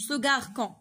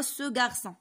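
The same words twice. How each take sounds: First: غاركون with a hard K sound for the C; wrong hard-C reading. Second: غارسون with a soft S sound for the ç; soft cedilla C. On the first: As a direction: misread the C in غاركون as K. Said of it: "ما يمكنلاش نقراوها سو غاركون". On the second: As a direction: read the ç in غارسون as S, not K. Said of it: "غنقراوها سو غارسون". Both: Shown as a demonstration.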